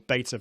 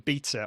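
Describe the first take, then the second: First: It is said with an American accent. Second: It is said with a British accent.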